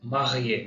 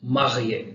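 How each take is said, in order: First: Marié with a French r, falling; French example. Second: Marié again, louder, with French r; French example repeated. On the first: Teacher models the example word in French. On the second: Teacher repeats the French example, louder. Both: Shown as a demonstration. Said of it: "example".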